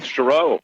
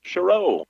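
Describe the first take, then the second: First: Said in the usual way. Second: Chereau with the stress on the second syllable, sher-OH; name pronunciation. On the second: Shown as a demonstration. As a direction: spell it out then say Chereau, landing on the last syllable. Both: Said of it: "stress on the second syllable".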